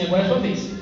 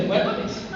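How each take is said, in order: First: Said in the usual way. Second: Whispered repeat of the line. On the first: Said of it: "e falou comigo assim". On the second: Retold or imitated. Father retelling his son's words, whispered. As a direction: breathe it out in a whisper. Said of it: "Eu permaneci ali".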